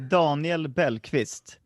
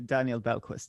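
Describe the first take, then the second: First: The name is said with Swedish pronunciation. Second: The name is said with English pronunciation. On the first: "in Swedish I would say" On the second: "in English I say"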